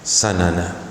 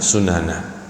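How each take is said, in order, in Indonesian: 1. Vokal pertama adalah 'a' terbuka. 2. Vokal pertama adalah 'u' membulat. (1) "dibaca dengan fathah" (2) "sebagian membaca dengan sunana"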